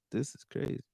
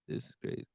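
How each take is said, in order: First: Said in the usual way. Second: Whispered to himself in disbelief; a soft whispered aside, shaking his head. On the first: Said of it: "repeated whisper". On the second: Real, not acted. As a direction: breathe it out, no voice. Repeated to himself, unvoiced.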